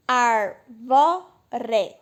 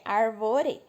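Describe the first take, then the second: First: Arvore in three separate loud beats, ar, vo, re; split into syllables. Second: Said in the usual way. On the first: Shown as a demonstration. Teacher dividing the word to count syllables, separated arvore. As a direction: chop arvore apart, each syllable given its own force. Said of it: "e dividir". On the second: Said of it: "tem três sílabas".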